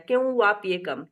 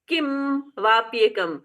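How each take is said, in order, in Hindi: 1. होंठ हल्के खुले रहते हैं, जिससे v जैसी आवाज़ आती है। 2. m ध्वनि के लिए होंठ पूरी तरह बंद होते हैं। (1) "तो ये व जैसा हो गया" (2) "मुँह बंद कर दिया, म बोला"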